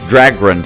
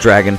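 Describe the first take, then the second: First: It has an extra r after the g. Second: It has no extra r after the g. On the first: "That's the way I say it" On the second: "not Dragon"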